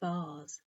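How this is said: It rhymes with Mars. "in British English rhymes with the planet Mars"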